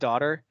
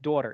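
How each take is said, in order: First: The first vowel is an open ah sound. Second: The first vowel is rounded toward an oo sound. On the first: The speaker is not from that area. "instead of daughter" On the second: The speaker is from the Delco area of Pennsylvania. "You say like daughter"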